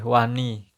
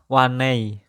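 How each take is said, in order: First: It ends in a plain i vowel. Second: It ends in an ei glide. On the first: This is the Blitar Javanese form. "bahasa Jawa Blitar ya. Kalau berani itu wani" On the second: This is the Using dialect form. "Kalau bahasa usingnya wanei"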